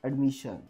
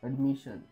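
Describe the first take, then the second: The two takes are said the same way.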